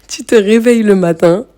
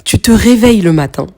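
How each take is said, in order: First: Said through a light laugh, rising at the end. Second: Said in the usual way. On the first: Real, not acted. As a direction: restart the line with a chuckle. Repeats the line, laughing. (en riant doucement)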